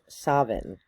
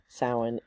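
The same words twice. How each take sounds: First: It uses the Scottish Gaelic pronunciation. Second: It uses the common, non-Scottish pronunciation.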